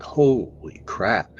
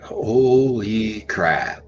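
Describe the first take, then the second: First: Slow, stretched-out holy crap; half-whispered astonishment; drawn-out awe. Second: Very slow, drawn-out "Holy crap"; frozen, awed exclamation; stunned awe. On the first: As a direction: let "Holy crap" hang in slow disbelief. Awe at huge tree structures. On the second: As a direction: stretch each word in disbelief. Seeing three adult Bigfoot. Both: Retold or imitated.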